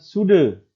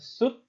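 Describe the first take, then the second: First: The word ends with an added vowel sound. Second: The word ends with a clipped t-like consonant. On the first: The speaker calls it wrong. "Bukan sude" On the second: The speaker calls it right. "melainkan sud"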